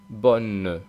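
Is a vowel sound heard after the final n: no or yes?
Yes. It ends with a faint e vowel. This is how it sounds in the south. "en el sur hace una especie de E"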